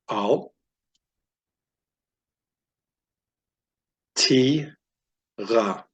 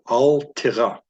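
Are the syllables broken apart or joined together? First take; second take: broken apart; joined together. First: The syllables are said separately with pauses. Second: The syllables are joined in one smooth word.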